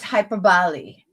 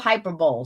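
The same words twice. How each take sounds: First: The word ends in a 'bolee' sound. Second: The word ends in a 'bowl' sound. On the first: The speaker calls it right. "She's like, it's hyperbole" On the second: The speaker calls it wrong. "it looks like hyperbole to me, like Super Bowl"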